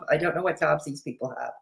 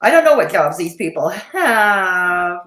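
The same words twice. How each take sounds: First: Much softer, faster mutter; muttered aside. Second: Said in the usual way. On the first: Shown as a demonstration. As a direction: mutter it to yourself.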